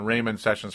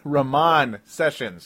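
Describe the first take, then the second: First: The first name is said as Raymond. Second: The first name is said as Ramon. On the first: The speaker calls it wrong. "as I'd been saying, Raymond Sessions forever" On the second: The speaker calls it right. "as I'm finally able to say it correctly"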